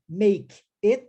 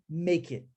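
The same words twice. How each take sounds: First: The two words are said separately. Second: The two words are joined into one. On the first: "Ao invés de dizer make it" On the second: "eu digo make it. Eu unifico as duas palavras"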